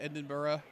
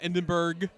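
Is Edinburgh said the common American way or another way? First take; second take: another way; American way. First: It is not said the common American way. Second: It is said the common American way. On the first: The speaker calls it right. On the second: The speaker calls it wrong.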